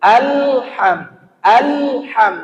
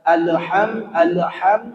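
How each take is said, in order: First: "Alham" with the l held, no bounce; alham without bounce. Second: "alham" with the l flowing into an extra vowel; wrong alham. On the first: Teacher models alham without qalqalah. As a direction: say "Alham" with a steady dead l. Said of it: "Hilangkan qalqalahnya". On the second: Teacher imitates a student's wrong alham. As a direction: say "alham" as "alaham", smeared. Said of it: "Ada yang membaca". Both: Shown as a demonstration.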